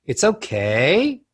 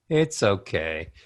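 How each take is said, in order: First: OKAY slowly slides up like a question; valley-talk rising slide on "okay"; uptalk scoop. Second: Slow, low fall on OKAY; sad, falling "okay"; descending melody. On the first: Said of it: "you scoop". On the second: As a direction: let "okay" sink down. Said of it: "Descending melodies". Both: Shown as a demonstration.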